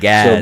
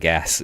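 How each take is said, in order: First: The word ends with a z sound. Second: The word ends with an s sound. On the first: This is how people in the far north say it. "with a Z" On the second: This is how most of the country says it. "in most of Canada, we call it gas"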